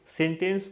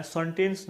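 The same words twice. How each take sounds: First: सेंटेंस as "sen-tens", clear E first; model pronunciation. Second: सेंटेंस as "sun-tens", first vowel dulled; mispronunciation demo. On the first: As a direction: open सेंटेंस on "sen", not "sun". (सेंटेंस में पहला स्वर "ए", "सेंटेंस") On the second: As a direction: start सेंटेंस with "sun" instead of "sen". (सेंटेंस को "संटेंस" जैसा बोलें) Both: Shown as a demonstration. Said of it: "सेंटेंस नहीं बोलना है".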